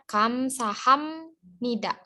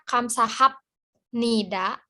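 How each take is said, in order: First: An M sound comes before 'nida'. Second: A P sound comes before 'nida'. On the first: This is how it is actually read. "jadi dibacanya Kamsaham Nida" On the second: This follows the written spelling. "Sebenarnya kan dia nulisnya Kamsahap Nida"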